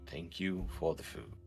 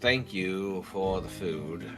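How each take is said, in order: First: It is said quietly and softly. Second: It is said at normal volume, with a huff.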